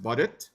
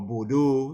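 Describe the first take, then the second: First: The word ends with a t sound. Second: The word ends with an open oh vowel. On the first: The speaker calls it right. "it's really pronounced Baudit" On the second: The speaker calls it wrong. "some people say Bordeaux"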